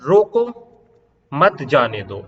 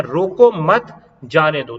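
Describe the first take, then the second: First: रोको rising, clear break, then मत जाने दो together; pause after रोको. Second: रोको मत together, short break, then जाने दो; pause after मत. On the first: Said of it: "coma लगाया है, यहां". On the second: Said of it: "रोको मत के बाद कोमा लगाया है". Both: Shown as a demonstration.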